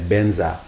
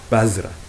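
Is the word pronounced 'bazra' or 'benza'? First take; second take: benza; bazra. First: The word is pronounced with 'ben' and 'za'. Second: The word is pronounced with 'baz' and 'ra'. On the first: This is how many Tibetans say it. "Benza is just how a lot of Tibetans pronounce it" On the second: This follows a different Tibetan pronunciation. "The way my teacher would pronounce it is Bazra"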